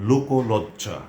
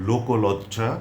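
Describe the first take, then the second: Both takes have the same delivery.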